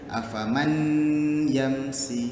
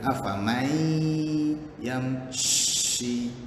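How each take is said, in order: First: The n sound is kept before the y. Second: The n sound merges into the y. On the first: The speaker calls it wrong. "Dia tak boleh afaman yamsi. Salah" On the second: The speaker calls it right. "Dia kena afamai yamshi"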